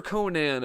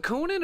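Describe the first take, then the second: First: Conan with a full "nan" as the last syllable; Conan ending in "nan". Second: Conan with the last syllable as a short "nin"; Conan ending in "nin". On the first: Asking chat how the name goes, Conan ending in "nan". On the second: Asking chat how the name goes, Conan ending in "nin". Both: Shown as a demonstration. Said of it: "Do you go Nan or Nin".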